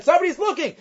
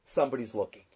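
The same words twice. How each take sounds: First: Retold scream of alarm, pitched up; mock scream. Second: Much lower and softer, a grave hush; low quiet reveal to the wagon driver; hushed punchline. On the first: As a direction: cry out the warning in a pitched-up mock yell. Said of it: "starts screaming again". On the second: Retold or imitated. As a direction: drop the voice low and soft for the punchline.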